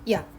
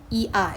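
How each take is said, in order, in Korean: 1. 짧은 반모음이 바로 이어져서 한 음절이 돼요. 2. 두 모음을 끊어서 따로 발음해요. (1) "이 발음을 아주 짧게 발음하고 바로 이어서 아 발음을 하는 거예요" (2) "이렇게 하지 말고"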